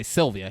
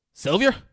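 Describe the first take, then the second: First: Said in the usual way. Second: "Sylvia" mangled to end in "-yer", loud and rising; mispronounced Sylvia. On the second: Retold or imitated. Rolf who can't say Sylvia, loud rising "Sylvia" with "-yer" ending. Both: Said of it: "he can't say Sylvia".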